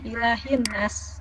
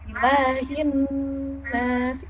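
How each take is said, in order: First: The nasal sound is cut short. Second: The nasal sound is held long. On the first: The speaker calls it wrong. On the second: The speaker calls it right.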